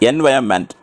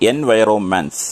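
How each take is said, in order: First: It has no extra 'ro' syllable in the middle. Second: It has an extra 'ro' syllable in the middle. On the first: The speaker calls it right. "അങ്ങനെയാണ് പറയേണ്ടത്" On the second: The speaker calls it wrong. "ഇവർ പറഞ്ഞത് എൻവയറോൺമെന്റ്സ്, അങ്ങനെയല്ല പറയേണ്ടത്"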